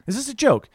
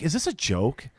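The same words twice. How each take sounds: First: Higher, pressing disbelief on joke; incredulous repeat. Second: Said in the usual way. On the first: Retold or imitated. Artist to costumed guest, higher, baffled disbelief. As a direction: ask it again, now openly baffled.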